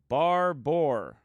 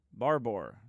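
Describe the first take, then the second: First: Barbor said slowly, drawn out as if copying a viewer; careful pronunciation. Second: Said in the usual way. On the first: Shown as a demonstration. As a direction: sound out Barbor deliberately. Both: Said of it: "pronounce it like that for me in slow motion".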